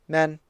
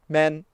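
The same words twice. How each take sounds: The two takes are said the same way.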